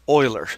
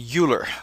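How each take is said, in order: First: The name begins like 'Oilers'. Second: The name does not begin like 'Oilers'. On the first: The speaker calls it right. "his last name is actually pronounced Euler, just like the Oilers" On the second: The speaker calls it wrong. "it is a common mistake among students to call, call him Euler"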